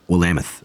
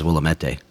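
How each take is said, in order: First: It is said the locals' way, unlike its spelling. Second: It is said the way its spelling suggests. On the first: This is how people who live there say it. "in Oregon, they say Willamette" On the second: This is how it reads on the sign. "when you look at the sign, it says Willamette"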